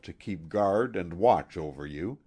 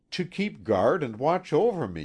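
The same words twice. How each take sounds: First: Said in the usual way. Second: Higher, teasing echo of his words; mock-solemn echo; quoting him back. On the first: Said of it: "original phrase". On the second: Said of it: "you said".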